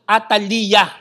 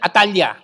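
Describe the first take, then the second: First: Every syllable, including the last, is spoken. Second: The last syllable is left out. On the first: This is how it is said in Hebrew. The speaker calls it right. "i-pronounce nyo siya as a syllable" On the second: This is how Western readers say it. The speaker calls it wrong. "skip natin yung last syllable"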